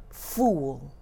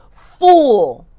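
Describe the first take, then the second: First: Low muttered scorn. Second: Loud, falling cry of contempt; hurled insult of contempt; scornful cry. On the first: Margaret's scornful curse, first take. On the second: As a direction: fling the word at him. Margaret's curse, repeated louder. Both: Acted.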